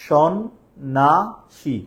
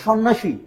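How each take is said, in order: First: সন্ন্যাসী drawn out slowly in three separate syllables. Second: Said in the usual way. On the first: Shown as a demonstration. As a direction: count the beats of সন্ন্যাসী aloud. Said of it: "কয়টা অক্ষর বলো তো?". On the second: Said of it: "এবার তাহলে খেয়াল করো".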